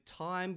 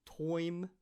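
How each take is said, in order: First: Said in the usual way. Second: "toim" with an OY vowel; Australian vowel in "toim". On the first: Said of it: "so time becomes toim". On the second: Shown as a demonstration. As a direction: say "toim", the long I turned into OY. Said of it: "time becomes toim".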